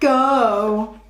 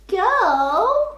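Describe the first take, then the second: First: It is said in a serious voice. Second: It is said in a squeaky voice. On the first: "Let's read the words in a serious voice" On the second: "let's read the words using a squeaky voice"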